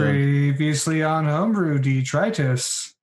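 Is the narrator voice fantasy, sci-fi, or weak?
sci-fi. It is said in a sci-fi announcer voice.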